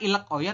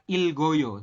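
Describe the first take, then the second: First: The final consonant is separated from the next syllable. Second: The final consonant links into the next syllable. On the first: The speaker calls it wrong. "bukan Ilek Oyo" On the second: The speaker calls it right. "yang benar adalah Ilgoyo"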